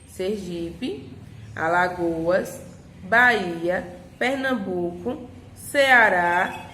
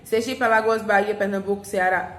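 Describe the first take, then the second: First: Short pauses separate each name in the list. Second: The names run together without any pauses. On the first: The speaker calls it right. "Então a gente dá uma pausazinha" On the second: The speaker calls it wrong. "Não pode ler assim"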